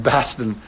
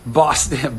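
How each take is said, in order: First: Second, flatter-vowelled Boston accent. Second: Boston accent on the city's name. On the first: Retrying Boston for viewers, Boston accent. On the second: Trying out Boston for viewers, Boston accent. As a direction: say Boston like a local. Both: Shown as a demonstration. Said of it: "speaking of Boston".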